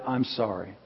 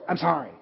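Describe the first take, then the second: First: Much softer and lower, a deep-breathed sincere sorry; heartfelt apology. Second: Mock grudging kid's sorry, tossed off; insincere kid apology. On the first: Retold or imitated. Shrek apologizing from the heart, soft and sincere. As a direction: let it come slowly from the heart. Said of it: "he just breathed deep and said". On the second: Kid forced to apologize, grudging and insincere. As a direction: throw the apology away like a sulky child. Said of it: "Kinda like my kids say".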